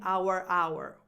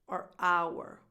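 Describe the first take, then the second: First: The first word is fully pronounced and heavy. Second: The first word is reduced and weak. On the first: The speaker calls it wrong. "I'm not saying our hour. That would be too much" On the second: The speaker calls it right. "the first one is just our"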